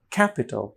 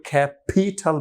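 First: Said in the usual way. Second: "ক্যাপিটাল" as kha-PHEE-THAL, puffed p and t; wrongly aspirated P and T. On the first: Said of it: "তাহলে এটার উচ্চারণ হবে". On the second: Shown as a demonstration. Teacher showing what nobody says, wrongly aspirated P and T. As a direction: overstress the later syllables of "ক্যাপিটাল", aspirating p and t. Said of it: "কেউ ক্যাপিটাল বলে না".

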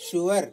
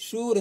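First: "ಶ್ಯೂರ್" in two syllables, shoo-war; British pronunciation. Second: "ಶ್ಯೂರ್" as one syllable, shoor; American pronunciation. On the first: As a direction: say "ಶ್ಯೂರ್" British style, with a w glide. ("ಶ್ಯೂರ್" British ಉಚ್ಚಾರಣೆಯಲ್ಲಿ, ಶೂ-ವರ್) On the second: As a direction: say "ಶ್ಯೂರ್" American style, no w glide. ("ಶ್ಯೂರ್" American ಉಚ್ಚಾರಣೆ, ಒಂದೇ ಉಚ್ಚಾರಾಂಶ) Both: Shown as a demonstration. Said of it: "ಅದೇ ಥರ".

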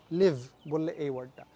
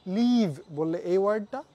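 First: লিভ with a quick short i, lower; short vowel. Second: লিভ stretched with a long ee, slow; long vowel. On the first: Teacher shows the short vowel of the word. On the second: Teacher shows the long vowel of the word. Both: Shown as a demonstration. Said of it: "লম্বাভাবে বলছি নাকি ছোটভাবে".

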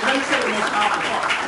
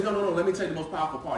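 First: Louder, urgent retold plea; emotional retelling. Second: Said in the usual way. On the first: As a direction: press the point, voice lifted with feeling. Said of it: "He's emotional because I would be emotional". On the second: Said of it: "He's emotional".

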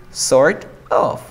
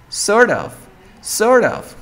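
First: Sort of with T sounded and a gap; "sort of" unlinked, as written; separate words. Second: Sort of as "sor-of", higher; "sort of" run into one word, no T; linked reduction. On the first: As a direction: say "sort" then "of" apart. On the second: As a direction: link "sort of" without the T. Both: Shown as a demonstration. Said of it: "Podemos linkear".

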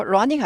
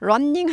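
First: "running" as ru-ning, one short N; single N. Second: "running" as run-ning, both Ns sounded; doubled N. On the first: Teacher shows the proper form, single N. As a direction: glide through running with one N. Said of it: "running 하지 않고 running". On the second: Teacher shows learners what to avoid, doubled N. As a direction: hold the N in running. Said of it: "N 두 개 있으면". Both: Shown as a demonstration.

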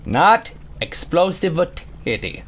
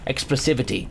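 First: "Not explosivity" slow, hitting "Not"; slow down and punch "Not explosivity"; stress on NOT. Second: Said in the usual way. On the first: Real, not acted.

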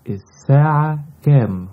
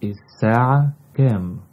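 First: الساعة كام asked high and loud, falling on كام; lively question. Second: الساعة كام said quickly at normal pitch; quicker repeat. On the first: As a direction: ask الساعة كام brightly, dropping on كام. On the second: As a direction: rattle off الساعة كام naturally. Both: Shown as a demonstration. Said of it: "What is the time?".

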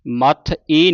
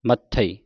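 First: ਮੱਥ ਈ broken into maath and a loud ee; wrong split. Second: ਮੱਥਈ as short ma, then stressed ਥਈ; careful ਮੱਥਈ ending in tha-ee; correct reading. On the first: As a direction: close on ਮੱਥ, then long separate ਈ. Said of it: "ਨਹੀਂ ਪੜ੍ਹਨਾ". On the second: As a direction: set ਥਈ apart in ਮੱਥਈ. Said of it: "ਇਸ ਤਰ੍ਹਾਂ ਪੜ੍ਹਨਾ ਹੈ". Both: Shown as a demonstration.

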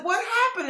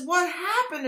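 First: Much higher, softer stunned question. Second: Stunned. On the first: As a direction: ask it in quiet disbelief. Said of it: "And I said". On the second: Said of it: "I'm saying". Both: Retold or imitated.

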